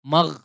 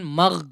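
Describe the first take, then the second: The two takes are said the same way.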